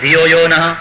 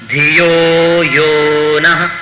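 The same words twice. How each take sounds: First: The yo syllables are rushed and short. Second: The yo syllables are drawn out long. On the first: The speaker calls it wrong. "બોલી નાખો ... ખોટું" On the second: The speaker calls it right. "બંને યો એ ગુરુ છે એને લંબાવવા જ જોઈએ"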